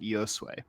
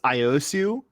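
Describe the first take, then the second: First: The surname is said the original way. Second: The surname is said the Americanized way. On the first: This is how the ancestors said it. "They pronounce it Iosue" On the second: This is how the family says it now. "we Americanized it"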